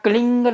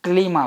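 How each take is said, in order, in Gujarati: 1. શબ્દ ng અવાજથી અંત પામે છે. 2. શબ્દ m અવાજથી અંત પામે છે. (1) "અહીંયા ક્લિંગ નહીં આવે" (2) "ક્લીમ આવશે"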